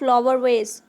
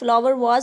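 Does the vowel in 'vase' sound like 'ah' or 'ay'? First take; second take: ay; ah. First: The vowel in 'vase' sounds like 'ay'. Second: The vowel in 'vase' sounds like 'ah'. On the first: The speaker calls it right. "फूल गुलदस्ता को हम English में कहते हैं flower वेज" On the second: The speaker calls it wrong. "बहुत से लोग इसे फ्लावर वाज"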